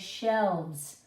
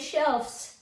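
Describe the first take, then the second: First: The word ends with a v sound before s. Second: The word ends with an f sound before s. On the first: The speaker calls it right. "We say shelves" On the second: The speaker calls it wrong. "We don't say shelves"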